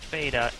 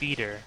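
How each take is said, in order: First: It is said with an American pronunciation. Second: It is said with a British pronunciation. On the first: "beta would be the proper term for the uh, for American pronunciation" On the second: "The term beater is just the British way of pronouncing beta"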